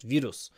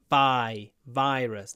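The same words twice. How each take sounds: First: The first vowel is said with a narrow mouth. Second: The first vowel is said with the mouth open wide. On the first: The speaker calls it wrong. "not just virus" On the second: The speaker calls it right. "Open your mouth. Virus"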